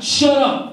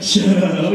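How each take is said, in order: First: Flat brush-off, really meaning it; "Shut up." said flat, like a real denial; annoyed denial. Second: Lower, teasing brush-off; "Shut up." said coyly, meaning "I know"; playful denial. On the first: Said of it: "it used to be ... now she's like". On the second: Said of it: "what she's thinking is, "I know". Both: Retold or imitated.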